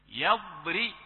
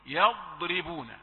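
First: يضري with a thick ra, rising; heavy ra error. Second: يضربون slow with thin ra; correct light ra. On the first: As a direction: imitate the mistake يضري. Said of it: "ولكن نحن ننبهك من الآن". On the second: Teacher corrects, slow clear recitation. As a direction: model يضربون gently. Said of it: "وهذا يحتاج إلى أن الفم". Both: Shown as a demonstration.

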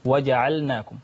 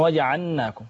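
First: وجعلناكم said as waja'alnakum, distinct l before n; lam kept clear. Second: وجعلناكم said as waja'annakum, doubled nun; lam merged into nun. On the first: Student gives the sheikh the correction, وجعلناكم with a clear lam. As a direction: sound the silent-vowel lam fully in وجعلناكم. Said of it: "والأصح أن يقول". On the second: Student shows the common mistake, وجعلناكم with lam merged into nun. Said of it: "يأتون بإدغام فيدغمون اللام في النون". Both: Shown as a demonstration.

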